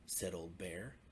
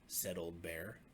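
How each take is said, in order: Both takes have the same delivery.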